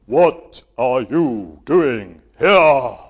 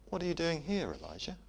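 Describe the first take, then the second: First: Huge booming shout, slow; film God booming. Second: Soft, hushed and gentle; gentle whisper. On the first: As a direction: boom it out like a movie God. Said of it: "But he doesn't say that". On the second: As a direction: ask it tenderly, almost whispered. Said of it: "It's a gentle whisper". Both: Shown as a demonstration.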